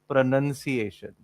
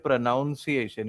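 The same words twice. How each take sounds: First: The second syllable sounds like 'nun'. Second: The second syllable sounds like 'noun'. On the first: The speaker calls it right. "it is pronunciation" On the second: The speaker calls it wrong. "you don't say pronunciation"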